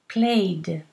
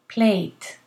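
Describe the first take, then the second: First: The word ends with a voiced D sound. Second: The word ends with a voiceless T sound. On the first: "you need to pronounce the ED as a D" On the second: "if this is very difficult, do a T"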